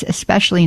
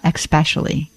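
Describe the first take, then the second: First: ESPECIALLY said as "es-pecially", no K sound; correct S pronunciation. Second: ESPECIALLY said as "ex-pecially", with a K sound; wrong X pronunciation. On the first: Host teaching listeners, correct "es" opening in ESPECIALLY. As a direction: give ESPECIALLY a clean S after the first vowel. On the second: Host showing the error to avoid, ESPECIALLY mispronounced with "ex". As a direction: put an X into ESPECIALLY, "eks-pecially". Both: Shown as a demonstration. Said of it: "not especially".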